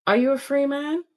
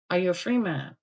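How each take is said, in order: First: "free" yükselen tonla, hafif soru; "free" sözcüğünü yukarı kaldırarak sor; stress on FREE. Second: "free" alçak, düşen tonla ve ağır; "free" sözcüğünü ciddi, düşen tonla bastır; stress on FREE, lower. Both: Retold or imitated. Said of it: "No, no, no, Troy".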